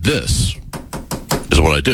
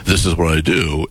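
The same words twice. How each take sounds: First: "this" stressed, long pause before "is what I do". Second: Said in the usual way. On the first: Shown as a demonstration. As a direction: hit "this", hold a beat, then "is what I do". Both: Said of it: "there's a difference between".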